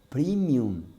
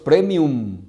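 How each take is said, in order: First: The word is said with an English pronunciation. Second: The word is said with a Latin pronunciation. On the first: The speaker calls it wrong. "Es una expresión anglosajona" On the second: The speaker calls it right. "Lo correcto es premium. Es latín"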